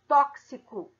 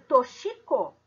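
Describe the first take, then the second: First: The x is sounded as ks. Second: The x is not sounded as ks. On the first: The speaker calls it right. "Ela tem som de KS" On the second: The speaker calls it wrong. "Mas eu leio toxico"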